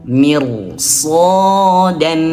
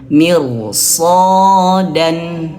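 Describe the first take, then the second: No difference in how they are said.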